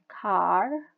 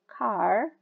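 First: It is said in an American accent. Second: It is said in an American accent.

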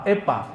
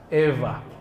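First: The middle consonant is a hard p sound. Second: The middle consonant is a soft v-like sound. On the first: The speaker calls it wrong. "bukan pula pa, epa, bukan" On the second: The speaker calls it right. "dibacanya semi-semi V, antara waw dan fa"

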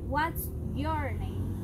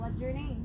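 First: A British accent, strong and clearly articulated. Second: An American accent, words run smoothly together. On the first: "Ellos pronuncian" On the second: "Y los americanos pronuncian"

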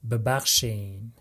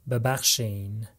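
The two takes are said the same way.

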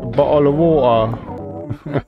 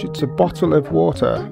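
First: It is said in a common British accent. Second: It is said in a posh British accent.

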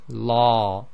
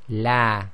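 First: The l is heavy and full. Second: The l is light and thin. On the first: "This is the heavy sound" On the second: "la is light, it's the a sound"

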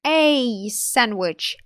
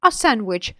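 First: The article is a full, stressed 'ay' sound. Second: The article is a weak, relaxed 'uh' sound. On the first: Only one sandwich was wanted. "Наголошуєте, що ви хотіли один" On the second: A sandwich was asked for, nothing special. "стандартний варіант вимови"

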